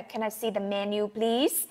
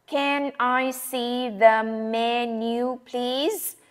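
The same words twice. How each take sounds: First: "Can I see the menu, please?" run together quickly, softer; natural connected speech. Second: Slow, word-by-word careful request; slow textbook version. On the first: Teacher showing how the menu request really sounds. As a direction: blend the words like a native speaker. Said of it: "trong thực tế thì chúng ta sẽ nghe là". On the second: Teacher giving the careful menu request before the real-life one. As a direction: say every word separately and clearly. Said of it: "Nhưng mà trong thực tế thì chúng ta sẽ nghe là". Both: Shown as a demonstration.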